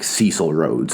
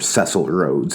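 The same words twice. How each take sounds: First: The name has a non-English pronunciation. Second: The name has an English pronunciation.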